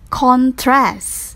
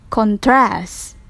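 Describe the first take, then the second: First: The stress is on the first syllable. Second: The stress is on the second syllable. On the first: It is used as a noun. "For noun, the stressive on first syllable" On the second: It is used as a verb. "verb, the second syllable"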